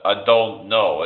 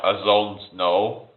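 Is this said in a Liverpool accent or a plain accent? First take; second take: plain; Liverpool. First: It is said in a plain, neutral accent. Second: It is said in a Liverpool accent. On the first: "instead of saying" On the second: "in Liverpool, they say ... it's like a Z. It's like"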